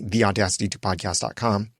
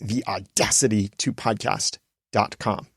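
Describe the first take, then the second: First: It is said at a quicker, ordinary pace. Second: It is said slower, with emphasis on the name. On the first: The speaker calls it wrong. "I don't say" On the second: The speaker calls it right. "A little bit slower, emphasizing the branding a little bit more"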